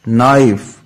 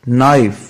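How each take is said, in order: The two takes are said the same way.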